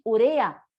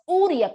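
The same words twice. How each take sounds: First: Urea stressed on the middle syllable, u-RE-a; correct stress urea. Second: Uria stressed on the first syllable, Ú-ri-a; old esdrújula uria. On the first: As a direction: say urea as u-RE-a, with the weight on re. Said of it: "la pronunciación adecuada". (urea grave, acento en re, u-RE-a) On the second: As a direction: say uria as Ú-ri-a, with the weight at the start. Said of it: "como si fuera una esdrújula". (uria como esdrújula, acento en la u inicial) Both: Shown as a demonstration.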